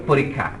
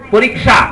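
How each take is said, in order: First: পরীক্ষা as said in speech, porikkha with a doubled kh; everyday পরীক্ষা, the kh sound doubled; spoken pronunciation. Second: পরীক্ষা read as written, porikʃa with a clear kkh; spelling-style পরীক্ষা, every letter sounded; written pronunciation. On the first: (মুখের উচ্চারণ, পরীক্ষা) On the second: (বানান অনুযায়ী উচ্চারণ, পরীক্ষা) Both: Shown as a demonstration. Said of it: "কিন্তু বলি পরীক্ষা".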